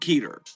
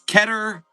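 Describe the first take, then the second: First: The first vowel is long, as in 'meter'. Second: The first vowel is short, as in 'better'. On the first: The speaker calls it wrong. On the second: The speaker calls it right.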